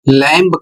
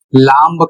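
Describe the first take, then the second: First: लैम्ब said with the b sounded, "lamb-uh"; wrong pronunciation. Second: लाम्ब with a long a and the b sounded; wrong pronunciation. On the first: Teacher demonstrates a common student mistake, wrong pronunciation. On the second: Teacher shows a second wrong version to students. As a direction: say लाम्ब as "laamb" with the final b. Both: Shown as a demonstration. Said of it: "यह बिल्कुल गलत है".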